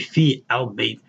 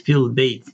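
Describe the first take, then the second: First: The article al is said as a separate syllable. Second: The vowel links straight into the L as fil. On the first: The speaker calls it wrong. "we won't say fi al bait" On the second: The speaker calls it right. "we'll say fil bait"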